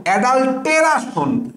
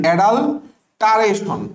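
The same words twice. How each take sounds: First: অ্যাডাল্টেরাশন with "te-ra-shon" in place of "ta-ray-shun"; spelling pronunciation. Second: Said in the usual way. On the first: Shown as a demonstration. Teacher giving a memory aid, spelling pronunciation. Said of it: "তো তুমি পড়বা কি জানো?". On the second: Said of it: "অ্যাডাল্টারেশন বা উচ্চারণ".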